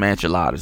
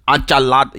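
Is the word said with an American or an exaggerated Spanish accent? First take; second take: American; Spanish. First: It is said with a plain American accent. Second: It is said with an exaggerated Spanish accent. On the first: The speaker calls it right. "Just say get some enchiladas in you" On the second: The speaker calls it wrong. "strengthen up the accent just because, you know"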